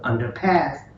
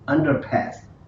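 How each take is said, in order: First: The stress is on the last syllable. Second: The stress is on the first syllable. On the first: The speaker calls it wrong. "not ... underpass" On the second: The speaker calls it right. "we're putting it on the first one"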